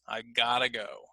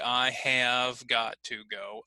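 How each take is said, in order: First: Have is dropped and got to becomes gotta. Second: Every word is said fully and separately.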